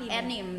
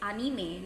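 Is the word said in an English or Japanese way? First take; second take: English; Japanese. First: The word is said with English-style pronunciation. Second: The word is said with Japanese-style pronunciation. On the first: The speaker calls it wrong. "not anime ... It's like an English" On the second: The speaker calls it right. "the right word to say anime is anime"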